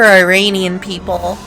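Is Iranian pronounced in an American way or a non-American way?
American. Iranian is said with an American pronunciation. The speaker calls it wrong. "Iranian's like a very American pronunciation"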